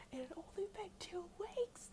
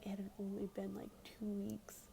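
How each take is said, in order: First: Much higher, squeaky-pitched disbelief; incredulous. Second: Said in the usual way. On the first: Real, not acted. Teller stressing how short it was, incredulous high pitch.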